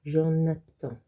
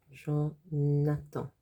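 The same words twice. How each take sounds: First: Said in the usual way. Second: Jonathan drawn out to show jaune attend; slowed Jonathan. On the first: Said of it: "it sounds like Jonathan". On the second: Shown as a demonstration. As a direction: stretch Jonathan out slowly. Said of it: "it sounds like the colour jaune".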